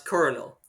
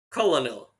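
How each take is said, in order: First: The word is said with an R sound. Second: The word is said with an L sound. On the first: The speaker calls it right. "no, that's colonel" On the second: The speaker calls it wrong. "when I was a, a kid, I was like colonel, and then people corrected me"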